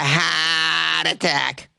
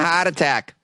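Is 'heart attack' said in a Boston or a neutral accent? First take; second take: Boston; neutral. First: It is said in a Boston accent. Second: It is said in a plain, neutral accent.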